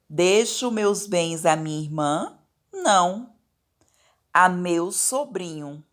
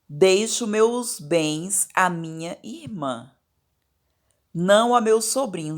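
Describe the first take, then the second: First: It rises like a question after irmã. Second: It flows on without a question rise.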